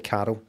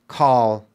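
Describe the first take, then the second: First: The name sounds like two syllables, Carol. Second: The name is said as one syllable. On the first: The speaker calls it wrong. "With my accent, I say Carol. I hit that R and then go out of the L" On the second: The speaker calls it right. "Whereas you say it properly"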